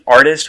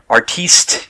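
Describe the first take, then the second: First: It is said the plain English way. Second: It is said French-style, ending in 'teest'. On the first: The title is used sincerely. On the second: The title is being mocked.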